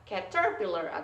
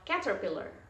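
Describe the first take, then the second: First: The stress is not on the first syllable. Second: The stress is on the first syllable. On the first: The speaker calls it wrong. "bukan caterpillar" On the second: The speaker calls it right. "kalau ini di ca berarti bacanya adalah caterpillar"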